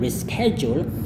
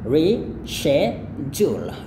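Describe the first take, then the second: First: It is said with an sk sound. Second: It is said with an sh sound. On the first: "kalau Amerika mereka menggunakan reschedule" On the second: "kalau British ataupun Kanada atau orang Kanada mereka menggunakan reschedule"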